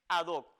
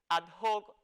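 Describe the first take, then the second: First: The h is silent, not pronounced. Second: The h sounds like a harsh j. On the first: The speaker calls it right. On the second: The speaker calls it wrong. "con esa H aspirada, es decir, con esa H que suena como J"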